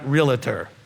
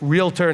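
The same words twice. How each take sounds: First: An extra vowel is heard before 'tor'. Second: No extra vowel is heard before 'tor'. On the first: The speaker calls it wrong. "not realtor, There's no extra A in there" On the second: The speaker calls it right. "it's realtor"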